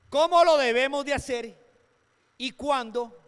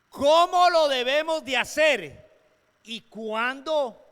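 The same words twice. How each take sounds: First: It is said at normal speed. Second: It is said slowly, with pauses.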